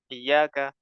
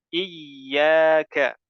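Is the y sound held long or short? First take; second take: short; long. First: The y sound is short and weak. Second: The y sound is held long and doubled. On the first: The speaker calls it wrong. "tidak boleh dibaca iyyaka" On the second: The speaker calls it right. "Jelaskan tasydid pada huruf ya"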